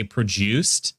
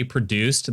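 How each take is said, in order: First: "produced" slowly as pruh-JOOST; British pronunciation. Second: Said in the usual way. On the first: Retold or imitated. Mocking how Brits say it, "produced" as pruh-JOOST. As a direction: put a J sound in the middle of "produced". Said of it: "They add a J in there?". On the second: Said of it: "they say produced".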